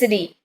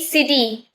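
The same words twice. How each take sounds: First: The middle t sounds like a soft d. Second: The middle t is a clear, sharp t. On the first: The speaker calls it right. "but in actual it's city" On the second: The speaker calls it wrong. "We say city"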